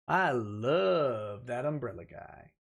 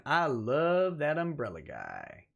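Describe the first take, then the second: First: Tug's accent. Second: Said in the usual way. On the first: Shown as a demonstration. Host doing Tug's accent for a viewer, slow and low. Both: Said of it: "Say in Tug's accent".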